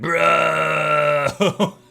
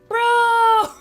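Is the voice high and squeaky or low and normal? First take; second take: low; high. First: It is said in a lower, normal voice. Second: It is said in a high, squeaky voice.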